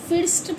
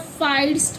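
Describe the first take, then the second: First: The vowel sounds like a short 'i'. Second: The vowel sounds like 'eye'. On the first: "फिर्स्ट पढ़ेंगे या फाइस्ट पढ़ेंगे? नहीं" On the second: "नहीं"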